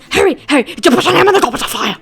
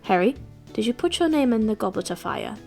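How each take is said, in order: First: It is said in an agitated, forceful way. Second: It is said in a calm, gentle way.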